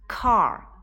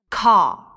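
First: It is said with a curled r sound. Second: It is said with no r sound. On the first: "我都是使用的美式发音" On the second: "同样它们的英式发音"

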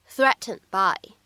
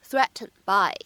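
The two takes are said the same way.

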